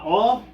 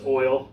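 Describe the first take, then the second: First: The word sounds like 'all', without the glide. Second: The word is said as 'oil', with the glide. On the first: It jokingly imitates how some people say the word. The speaker calls it wrong. "I don't really say it that way. I'm just being a wise guy" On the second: It is the speaker's usual way of saying it. The speaker calls it right. "I know it's oil"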